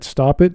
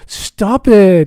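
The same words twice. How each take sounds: First: It is said in a flat, serious tone. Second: It is said in a giggly, playful tone. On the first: The person really wants it to stop. "in that context, that sounds bad" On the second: The person is teasing and does not really object. "that sort of playful, silly"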